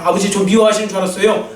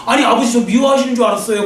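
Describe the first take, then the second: First: Same words, settled and relieved. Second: Retold cry out. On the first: Retold or imitated. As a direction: let the hurt drain out, now reassured. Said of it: "이제 안심되면서 그랬을 거예요". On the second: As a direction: call it out to the father in hurt disbelief. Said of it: "그러면서 막 그래".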